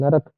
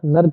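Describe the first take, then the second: First: The middle r carries a full vowel. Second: The middle r is clipped without a vowel. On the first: The speaker calls it right. "रा बनाओ पूरा" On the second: The speaker calls it wrong. "नर्क नहीं"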